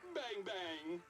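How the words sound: It is said in a happy tone.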